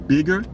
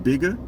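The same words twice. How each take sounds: First: The final R sound is pronounced. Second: The final R sound is dropped. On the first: "It can be bigger" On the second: "we just don't pronounce the E R on the end of words"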